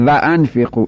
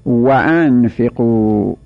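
First: و انفقوا opening on a long toothed v; Persian pronunciation. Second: و انفقوا drawn out slowly, opening on a rounded w; correct Arabic recitation. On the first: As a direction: buzz a v to start و انفقوا, as va. («و انفقوا» با واو دندانی فارسی) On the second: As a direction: start و انفقوا as wa, slow and careful. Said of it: "این غلطه آقا". («و انفقوا» با واو لبی عربی، کشیده) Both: Shown as a demonstration.

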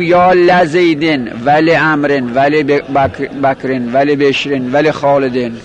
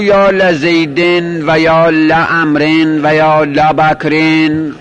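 First: "la" in لزیدن, then "le" in لامرن, لبکرن, لبشرن, لخالدن; slow recitation, لزیدن with "la", لامرن onward with "le"; fatha first, then kasra. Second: Slow recitation, "la" in لزیدن, لعمرن and لبکرن; fatha on every lam. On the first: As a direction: open "la-zeyden" for لزیدن, "le-amren" for لامرن. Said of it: "باید اینجوری بگیم". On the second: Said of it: "همه را به فتح بخور". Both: Shown as a demonstration.

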